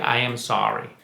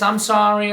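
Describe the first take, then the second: First: It sounds sincere and heartfelt. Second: It sounds quick and dismissive.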